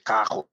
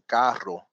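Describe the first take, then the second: First: The R is said in an altered way. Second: The R is said the usual way. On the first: "they would say cajo" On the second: "instead of saying carro"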